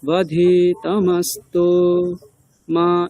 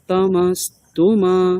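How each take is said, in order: First: There is a pause before the final syllable. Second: It runs on with no pause before the end. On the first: The short u sounds like a long u. The speaker calls it wrong. "হ্রস্ব উ-কারের পরে একটা বিরতি নিয়ে নেন তখন একটা ভুল হয়ে যায়" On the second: The short u stays short. The speaker calls it right. "কিন্তু আমরা যদি এরকম বলি"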